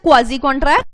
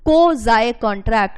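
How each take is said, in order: First: Quasi is said with the vowels 'ah' and 'ee'. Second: Quasi is said with two 'eye' vowels. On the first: This is how the word is spelled. "This is written as क्वाजी contract" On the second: This is how the dictionary says to pronounce it. "So this is कोजाए contract"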